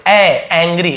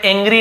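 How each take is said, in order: First: "ए, एंग्री": sound the ae alone, then ang-gree; correct open-ae vowel. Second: "एंग्री" as eng-gree, not ang-gree; wrong ay vowel. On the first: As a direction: say "एंग्री" opening with an open ae, as in cat. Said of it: "तो हम इसे एंग्री पढ़ते". ("एंग्री" की शुरुआत खुले ऐ से) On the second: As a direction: say "एंग्री" opening with a closed ay. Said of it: "एंग्री नहीं बोल रहा हूँ ना". ("एंग्री" की शुरुआत ए से) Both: Shown as a demonstration.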